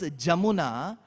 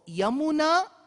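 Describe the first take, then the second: First: The word begins with a 'j' sound. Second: The word begins with a 'y' sound. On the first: This is how it is said in the north. "Ya becomes Ja" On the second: This is how it is said in the south. "for Yamuna, why are they saying Jamuna?"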